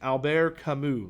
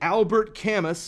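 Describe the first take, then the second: First: It is said with a more French accent. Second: It is said in a Southern American accent. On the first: "now let me try to do it a little more French" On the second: "let me do the Alabama pronunciation"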